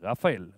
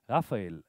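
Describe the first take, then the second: First: The name is said in a stern, serious tone. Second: The name is said in a warm, friendly tone. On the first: There is a problem to deal with. "now we have a problem" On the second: All is well between them. "This was now very friendly"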